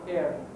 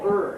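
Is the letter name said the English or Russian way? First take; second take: Russian; English. First: The letter name is said the Russian way. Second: The letter name is said the English way. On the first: "They go R, R. That's how they say R" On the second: "We go R"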